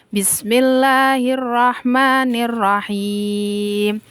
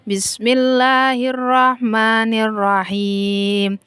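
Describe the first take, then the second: No difference in how they are said.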